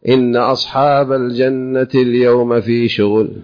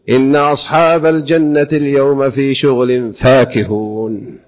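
First: The phrase stops after the word shughul. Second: The phrase runs on through shughul without stopping. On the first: The people of paradise seem to be kept busy with work. The speaker calls it wrong. "هنا بالمناسبة لا يحسن الوقف" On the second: The people of paradise are happily occupied in enjoyment. The speaker calls it right. "ينبغي أن يصل فيقول"

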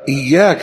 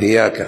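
First: The y sound is doubled and held. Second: The y sound is single and light. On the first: The speaker calls it right. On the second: The speaker calls it wrong.

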